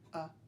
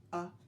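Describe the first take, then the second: First: It is short, simple and clipped. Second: It is short, simple and clipped.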